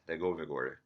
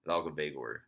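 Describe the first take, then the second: First: The name begins with a 'Leg' sound. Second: The name begins with a 'Lal' sound. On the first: The speaker calls it right. "It's close to uh, Legovigor, something like that" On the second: The speaker calls it wrong. "it's not Lalgavegor"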